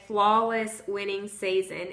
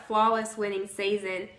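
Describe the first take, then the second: No difference in how they are said.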